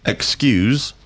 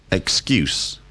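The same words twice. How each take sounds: First: Excuse, the verb, ending buzzed like z. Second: Excuse, the noun, ending in a crisp s. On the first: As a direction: Excuse with a final z sound, stress on cuse. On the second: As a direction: excuse with a final s sound, stress on cuse. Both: Shown as a demonstration. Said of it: "difference between excuse and excuse".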